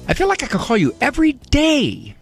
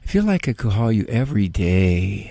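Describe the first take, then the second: First: It sounds excited and lively throughout. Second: It sounds weary, with the voice sinking at the end. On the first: The speaker is eager to be in touch. "Kind of an enthusiastic, excited to get in touch" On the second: The speaker is worn out and exhausted. "it was sort of that last breath as it went down"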